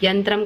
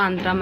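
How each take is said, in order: First: Said in the usual way. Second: అంతరం with a bare vowel start; initial glide dropped. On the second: Shown as a demonstration. Teacher showing a sound change, అంతరం without its first y. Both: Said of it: "పలకవలసిన చోట యా".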